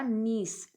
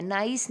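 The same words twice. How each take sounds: First: नीस said with a long ee, like niece; teacher gives the right way, नीस like peace; correct pronunciation. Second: नाइस said as nice, with a long ai like the English word; the wrong way children say niece, as नाइस rhyming with rice; wrong pronunciation. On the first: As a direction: say नीस with a clear long ee sound. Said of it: "लेकिन ये हमारा क्या होगा". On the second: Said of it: "कई बच्चे इसको नाइस बोलते हैं". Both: Shown as a demonstration.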